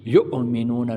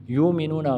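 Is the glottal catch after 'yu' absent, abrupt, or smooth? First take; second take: abrupt; absent. First: The glottal catch is pushed out with a jolt. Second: The glottal catch after 'yu' is left out. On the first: "झटका भी नहीं देना, इस तरह नहीं पढ़ना" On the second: "गलत है, ये हमज़ा है"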